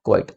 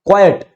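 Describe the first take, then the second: First: क्वाइट as "kwite", one syllable; one-syllable pronunciation. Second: क्वाइट as "KWAI-yut", higher pitched; two-syllable pronunciation. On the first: Teacher contrasts the other word for students, one-syllable quite. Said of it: "और एक होता है क्वाइट". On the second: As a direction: repeat क्वाइट with a clear second syllable, "yut". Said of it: "इसकी correct pronunciation होती है". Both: Shown as a demonstration.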